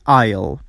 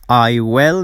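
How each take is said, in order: First: Will is shortened to a brief ul sound. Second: Both words are said in full.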